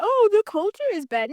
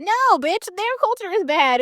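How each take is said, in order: First: Higher, mocking imitation of a complaint; mock quote. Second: "their" punched, higher; stress on their. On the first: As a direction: parrot their line back mockingly. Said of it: "you're like". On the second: Real, not acted. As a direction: lean hard on "their" to correct them. Rebutting the quoted complaint.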